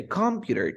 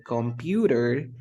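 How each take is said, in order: First: Computer wrongly stressed on COM; misplaced first-syllable stress. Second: Computer with the middle syllable stressed; stress on second syllable. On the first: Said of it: "you never say computer". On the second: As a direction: say computer, leaning on PU. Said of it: "or you say computer. No, you never". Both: Shown as a demonstration.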